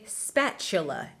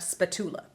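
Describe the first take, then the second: First: The middle consonant is said as a ch sound. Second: The middle consonant is said as a t sound. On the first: The speaker calls it right. "remember to say spatula" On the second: The speaker calls it wrong. "and not spatula"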